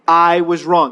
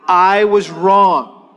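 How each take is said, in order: First: Said in the usual way. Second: Very slow, spaced words; slow model line. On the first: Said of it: "repeat after me". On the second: Shown as a demonstration. Pastor leading congregation in repeat, very slow. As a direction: lead them word by word.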